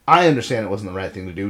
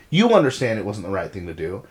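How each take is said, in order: First: "I" stressed, the rest quicker and lower. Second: "You" stressed, the rest dropping lower. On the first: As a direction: put the weight on "I". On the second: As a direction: put the weight on "You". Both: Retold or imitated. Retold talk, contrasting you and I.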